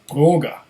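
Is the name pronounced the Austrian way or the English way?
Austrian. The name is pronounced the Austrian way. The speaker calls it right.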